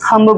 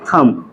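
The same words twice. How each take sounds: First: The word ends with an audible b sound. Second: The word ends on m with no b. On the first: The speaker calls it wrong. "बहुत लोग थंब बोलते हैं ना, थंब नहीं होता है" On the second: The speaker calls it right. "यहाँ पे बी क्या हमारा साइलेंट है"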